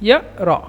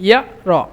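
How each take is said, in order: No difference in how they are said.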